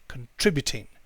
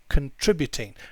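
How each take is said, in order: First: The first syllable is reduced to a weak 'kin'. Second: The first syllable is reduced to a weak 'kin'.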